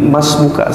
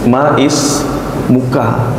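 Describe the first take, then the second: First: The vowel before the s is dropped. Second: The vowel before the s is pronounced.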